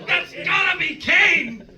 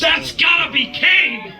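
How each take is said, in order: First: Much higher, slow shout; excited shout. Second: Much higher, slow, laughing shout; excited shout. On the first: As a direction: yell the guess again. Co-host repeats guess. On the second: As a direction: yell the guess with delight. Co-host guessing excitedly. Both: Real, not acted.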